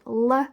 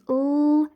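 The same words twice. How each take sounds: First: The consonant is followed by an extra 'uh' vowel. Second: The consonant is said alone with no added vowel. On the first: The speaker calls it wrong. "if you schwa and say l and k incorrectly" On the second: The speaker calls it right. "instead of saying l in the middle of milk"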